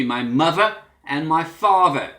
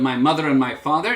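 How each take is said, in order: First: "my mother and my father" as muvva and farver; Cockney "my mother and my father", V in place of TH; Cockney TH-fronting. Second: Said in the usual way. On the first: Shown as a demonstration. Teacher contrasting with standard, "my mother and my father" with Cockney V. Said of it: "T H sound substituted for an F sound". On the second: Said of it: "Instead of my mother and my father".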